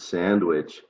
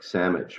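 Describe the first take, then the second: First: The D sound is clearly pronounced. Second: The D sound is dropped or changed.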